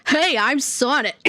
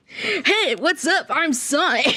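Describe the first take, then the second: First: Trying the Sonic voice. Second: Brighter, higher cocky Sonic greeting, breaking into a laugh; second Sonic attempt. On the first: Pretend. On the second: Trying out Sonic's voice for the mod, a bit higher and laughing. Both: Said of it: "I have to get the Sonic voice".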